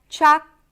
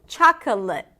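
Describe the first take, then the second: First: The word is said with two syllables. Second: The word is said with three syllables.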